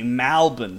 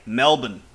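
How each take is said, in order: First: The first vowel sounds like 'mal', not 'mel'. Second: It is said with a local Australian pronunciation. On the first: This is how trendy locals say the name. "If you want to sound a bit like a hipster there in Melbourne, instead of Melbourne, you got to say Malbon" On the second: This is how locals say the name. "if you want to sound like a true local there, you've got to say Melbourne"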